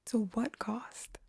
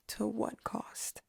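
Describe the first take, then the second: First: To what cost slow with a rise at the end; slow hushed rising question. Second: To what cost said slow and hushed; slow hushed question. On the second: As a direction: drag out to what cost in a hush. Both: Acted. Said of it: "I'd say".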